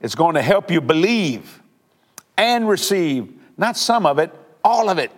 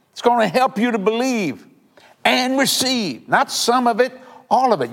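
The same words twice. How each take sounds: First: Said in the usual way. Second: The same promise again, pitched higher and pressed harder; higher, more emphatic repeat. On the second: Shown as a demonstration. Preacher repeats his promise to listeners, higher and more emphatic. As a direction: lift it and drive it home. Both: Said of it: "You want me to say it again?".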